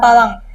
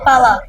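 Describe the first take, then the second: First: The word ends in an ng sound. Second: The word ends in an open vowel. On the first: The speaker calls it wrong. "not palang" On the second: The speaker calls it right. "it's called pala"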